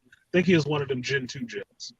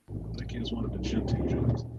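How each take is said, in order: First: Said in the usual way. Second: Deep put-on voice. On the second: Shown as a demonstration. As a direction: drop the voice far down into a deep rumble. Repeats the line in another voice.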